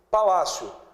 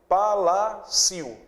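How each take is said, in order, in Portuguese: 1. O i é uma semivogal fraca. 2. O i é uma vogal forte e plena. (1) "Veja que esse I não é tão forte" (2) "se ele fosse forte... seria palacio"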